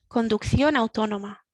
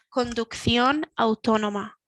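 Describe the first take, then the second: First: The phrase is said at normal speed. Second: The phrase is said slowly. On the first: "the second one normal speaking speed" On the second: "the first one a little bit slower"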